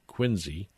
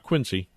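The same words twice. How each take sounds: First: The middle consonant is a z sound. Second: The middle consonant is an s sound. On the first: The speaker calls it right. "with a Z" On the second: The speaker calls it wrong. "not Quincy"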